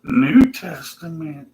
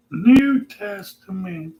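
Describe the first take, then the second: First: Higher, slow preachy voice. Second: Much higher, slower, put-on voice. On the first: Pretend. Imagined believer dismisses the Old Testament, smug and slow. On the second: Imagined believer insists on the New Testament, high and slow. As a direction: stretch it out smugly, higher. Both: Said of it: "he's gonna say".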